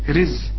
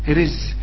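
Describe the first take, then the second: No difference in how they are said.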